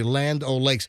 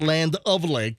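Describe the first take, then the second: First: The middle word is a short reduced 'o'. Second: The middle word is a full 'of'. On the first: The speaker calls it right. "Notice how I'm saying that properly" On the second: The speaker calls it wrong. "It's not Land of Lakes"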